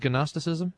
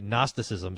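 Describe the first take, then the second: First: The word is pronounced in a deliberately odd way. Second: The word is pronounced in the usual way. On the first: The speaker calls it wrong. "whenever I pronounce something stupid on purpose" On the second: The speaker calls it right. "you should probably say Gnosticism so you don't sound like a moron like me"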